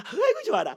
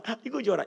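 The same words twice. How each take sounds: First: Squealed high and delighted; gleeful water. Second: Said in the usual way. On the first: Retold or imitated. Preacher voicing the happy water, high and gleeful. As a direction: voice the water as it laughs with joy. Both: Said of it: "이렇게 웃고 있대요".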